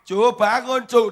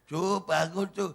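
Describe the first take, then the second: First: It is shouted loudly. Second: It is said at normal, quiet volume.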